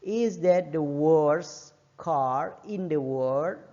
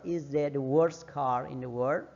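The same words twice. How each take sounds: First: Very slow, stretched final model sentence; slow careful teacher demo; very slow model reading. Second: Said in the usual way. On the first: Shown as a demonstration. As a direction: draw the whole question out for learners. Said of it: "dia nggak perlu S". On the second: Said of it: "earlier take, less slow".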